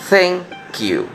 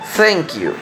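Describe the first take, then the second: First: It is said slowly. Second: It is said at normal speed.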